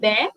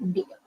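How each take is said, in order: First: The vowel sounds like 'air'. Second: The vowel sounds like 'ear'. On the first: The speaker calls it right. "it's bear and not beer" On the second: The speaker calls it wrong. "I've heard a lot of people mispronouncing this particular word"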